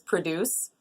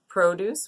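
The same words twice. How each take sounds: First: The stress is on the second syllable. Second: The stress is on the first syllable. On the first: It means to create something. "which is to create something" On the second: It means fruits and vegetables. "which means our fruits and vegetables"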